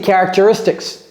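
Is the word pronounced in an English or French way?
English. The word is pronounced the English way. It is how a fluent speaker says it. The speaker calls it right. "Son audio, c'est characteristics"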